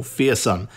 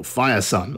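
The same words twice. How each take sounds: First: Fearsun, first part said like "fear"; alternative pronunciation. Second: Firesun, first part said like "fire"; alternative pronunciation. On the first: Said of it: "the band is pronounced Fearsun". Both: Shown as a demonstration.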